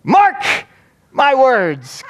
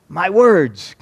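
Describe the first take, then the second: First: High, loud mock pulpit cry; imitated preacher ringing out a high-pitched warning; emphatic preacher's exclamation. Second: Imitated pulpit phrase, falling at the end; mock pastor finishing his phrase; preacher's pronouncement. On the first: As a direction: shout the first word, pause, then proclaim the rest. Replays pastor's phrase in full. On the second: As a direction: deliver it as a measured sermon line. Pastor resumes after long pause.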